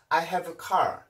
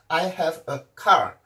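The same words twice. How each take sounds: First: The words are linked smoothly without breaks. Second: The words are separated with small breaks.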